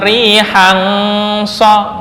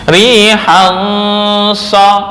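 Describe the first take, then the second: First: The nasal hum is drawn out and twisted. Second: The nasal hum flows smoothly without extra length. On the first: The speaker calls it wrong. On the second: The speaker calls it right.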